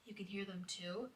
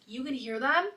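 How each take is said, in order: First: Very soft, disbelieving question; quietly acted question; hushed question. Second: Acted surprised question. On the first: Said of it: "And then I'm like". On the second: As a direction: ask it back in mild astonishment. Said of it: "And then she's like".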